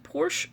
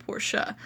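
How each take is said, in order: First: PORSCHE said as one syllable, PORSH; clipped-ending "Porsche", rhymes with "torsh"; one-syllable pronunciation. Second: PORSCHE said as PORSH-uh; two-syllable pronunciation. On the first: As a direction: say "Porsche" ending on SH, no final vowel. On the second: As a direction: say "Porsche" with a final UH. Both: Shown as a demonstration. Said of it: "pronounce this one of two ways".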